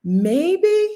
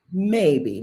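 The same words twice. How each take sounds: First: MAYBE high and rising; questioning maybe. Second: Said in the usual way. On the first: Real, not acted. Speaker hedging on an answer, high questioning MAYBE. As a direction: lift the end of MAYBE into a question.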